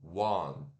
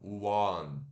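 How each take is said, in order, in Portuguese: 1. Ela é falada com sons do inglês, começando com w. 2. Ela é falada com sons do inglês, começando com w.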